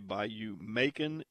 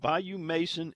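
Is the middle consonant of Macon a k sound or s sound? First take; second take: k sound; s sound. First: The second word is said with a k sound. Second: The second word is said with an s sound. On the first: This is how people in the south would say the name. "if you're in South, you would probably say Bayou Macon" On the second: This is how the local managers say the name. "So they've got Bayou Mason"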